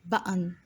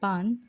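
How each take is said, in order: First: It has two syllables split by a catch. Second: It is one syllable with no break. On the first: The speaker calls it right. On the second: The speaker calls it wrong.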